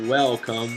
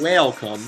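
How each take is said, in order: First: The first syllable sounds like 'well'. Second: The first syllable sounds like 'whale'. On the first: It is the ordinary greeting. The speaker calls it wrong. "not welcome" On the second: It is a joking play on words. The speaker calls it right. "it's welcome"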